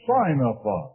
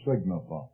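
First: The first syllable sounds like 'sign'. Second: The first syllable sounds like 'sig'. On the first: The speaker calls it right. "Pronounce it signify. ... it isn't grammatically correct, but it's theologically correct. The word here means to make known by sign" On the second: The speaker calls it wrong. "Don't pronounce it signify"

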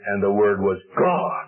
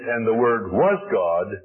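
First: The word God carries strong stress. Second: The word God carries no special stress.

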